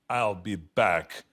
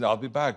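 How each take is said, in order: First: It is said in the Terminator movie style. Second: It is said casually, in an everyday voice.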